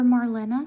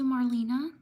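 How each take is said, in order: First: Marlena said mar-LEN-a, louder; alternative pronunciation. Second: Marlena said mar-LEE-na; alternative pronunciation. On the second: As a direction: say Marlena with a long "ee" in the middle. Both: Shown as a demonstration. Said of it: "sorry if I mispronounced".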